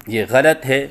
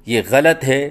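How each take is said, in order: The two takes are said the same way.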